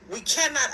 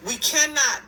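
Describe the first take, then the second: No difference in how they are said.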